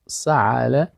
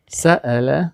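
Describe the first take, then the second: First: سعل with a throaty ain; سعل, ain from the throat; ain sound. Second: سأل with a clean glottal stop; سأل, hamza in the middle; hamza sound. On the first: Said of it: "سعل به عین است". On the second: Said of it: "تو نشه که همزه مثل عین". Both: Shown as a demonstration.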